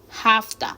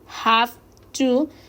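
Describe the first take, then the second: First: The phrase is reduced to 'hafta'. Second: The phrase is said in its full form.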